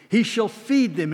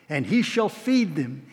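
First: "feed" lifted high and punched; stress on feed. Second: He leaned on, slow and falling; weight the word "he", drawn out; stress on he. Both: Shown as a demonstration.

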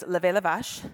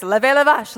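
First: Levez la vache en francés; French phrase. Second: "levez la vache" louder and higher; French phrase. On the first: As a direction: decir "levez la vache" con acento francés. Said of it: "I can also say in French". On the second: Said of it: "That is all I remember is". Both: Shown as a demonstration.

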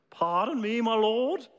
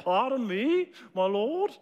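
First: A hint of English politeness; polite English accent. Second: Put-on light, higher English accent, very polite. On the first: Preacher voicing Gideon again, faintly English and polite. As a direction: ask it gently, a touch of English accent. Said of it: "Again, very polite". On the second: Preacher voicing Gideon to the congregation, lightly English and polite. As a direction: ask it with teacup-and-pinky English politeness. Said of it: "Very polite".

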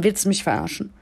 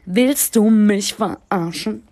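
First: Said in the usual way. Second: Slow, louder, stretched indignation; louder, slower second take of the question; drawn-out louder repeat. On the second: Retold or imitated. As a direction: stretch it out in disbelief.

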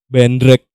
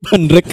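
First: Said in the usual way. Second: Laughing through the word Bandrek. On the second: Real, not acted. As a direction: repeat Bandrek while cracking up. Repeats answer laughing.

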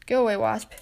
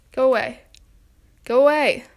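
First: Said in the usual way. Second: Louder each time, shooing the wasp off; shooing yell. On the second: Real, not acted. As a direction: build from a firm shoo to a yell.

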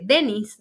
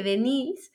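First: "Dennis" in the English way, stress on the first syllable "DE-nnis"; "Dennis" with two syllables, like Dennis Rodman; "Dennis" as the masculine form, short, with no final "e". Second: "Denise" said the Spanish way, stress on the last syllable "-ni-se"; "Denise" with three syllables, ending in "se"; "Denise" as the feminine form, de-NI-se. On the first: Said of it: "se dice Dennis". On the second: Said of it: "en masculino se dice Dennis". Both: Shown as a demonstration.

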